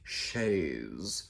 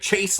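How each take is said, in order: First: It is said in a snooty, posh way. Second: It is said in a plain, everyday way. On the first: This is the proper, fancy name. The speaker calls it right. "you have to say it like that with a little bit of snooty hoity-toityness" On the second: This is the local everyday name. The speaker calls it wrong. "we just called it a Chase Lounge"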